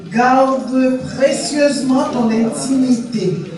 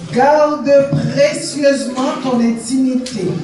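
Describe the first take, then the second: The two takes are said the same way.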